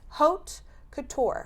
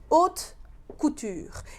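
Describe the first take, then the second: First: It is said with an American pronunciation. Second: It is said with a French pronunciation.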